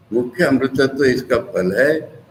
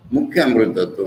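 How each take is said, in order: First: Said in the usual way. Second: मुख्य said with the weight, अमृतत्व falls away; मुख्य stressed over अमृतत्व. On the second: Shown as a demonstration. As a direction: lean on मुख्य to mean chief, not relative. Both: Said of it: "मतलब relative नहीं".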